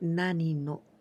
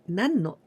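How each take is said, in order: First: The first word is the full form nani. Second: The first word is the short form nan. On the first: The speaker calls it wrong. "never we say nani no" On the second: The speaker calls it right. "this is correct one"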